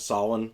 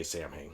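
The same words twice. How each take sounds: First: "Samhain" said as SOW-in, with silent m; Irish pronunciation. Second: "Samhain" said as SAM-hayn; everyday anglicized pronunciation. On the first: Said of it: "the correct pronunciation is Samhain". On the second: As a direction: say "Samhain" as spelled, like Sam plus Hain. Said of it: "of course, I just, I say". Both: Shown as a demonstration.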